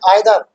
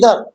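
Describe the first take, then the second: First: The first vowel is an eye sound. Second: The first vowel is an ee sound. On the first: This is how most Indians say it. "ज्यादातर हिंदुस्तानी बोलते हैं आइदर" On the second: This is how English people say it. "अंग्रेज बोलते हैं इधर"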